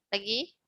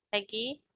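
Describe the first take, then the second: Both takes have the same delivery.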